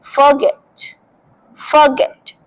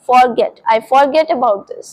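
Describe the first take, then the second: First: "forget" said as fuh-GET; short r-less first syllable in "forget"; careful fuh-GET for "forget"; silent r. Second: "forget" said as FOR-get; full "or" vowel in "forget"; former wrong pronunciation. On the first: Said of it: "hard word जो है वो silent है". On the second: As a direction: sound "for" fully at the start of "forget". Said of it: "मैं भी यही बोलती थी". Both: Shown as a demonstration.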